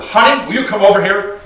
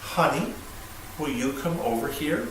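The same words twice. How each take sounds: First: Loud, higher, rushed call to a spouse; sharp demand. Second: Soft, unhurried ask to a spouse; careful, gentle request. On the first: Husband summoning his wife the wrong way, loud and demanding. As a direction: call honey over sharply and impatiently. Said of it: "the way I say it". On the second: Husband calling his wife over with care, soft and gentle. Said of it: "we have to be very careful". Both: Shown as a demonstration.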